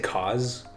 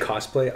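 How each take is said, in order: First: The first syllable sounds like 'cause'. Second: The first syllable sounds like 'coss'. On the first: This is how the speaker personally says it. "I say cause" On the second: This is how most people say it. "People say cosplay"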